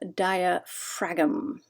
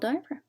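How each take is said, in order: First: The G is sounded aloud before the final M. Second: The final G is silent, ending in 'fram'.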